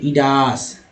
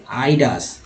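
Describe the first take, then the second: First: इडास begun with "ee", not "eye"; short "i" opening. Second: आइडास begun with the diphthong "eye"; "eye" opening. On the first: Teacher misreading a listed word, इडास with "ee" at the start. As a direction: open इडास on a plain i vowel. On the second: Teacher correcting the slip, आइडास with "eye" at the start. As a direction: open आइडास on a long "ai" glide. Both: Shown as a demonstration. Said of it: "sorry आइडास".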